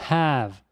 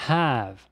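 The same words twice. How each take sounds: The two takes are said the same way.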